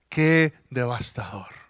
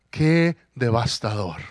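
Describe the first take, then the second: No difference in how they are said.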